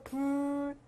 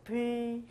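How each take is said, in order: First: The vowel is rounded, like u. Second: The vowel is unrounded, like eu. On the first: This is the modern form of the word. "원순모음화되면서" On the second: This is the older form of the word. "원래 불도 불이었어요"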